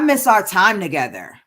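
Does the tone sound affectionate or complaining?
complaining. The tone sounds complaining and reproachful. The speaker is grumbling about a lack. "in a way that sounds like a complaint"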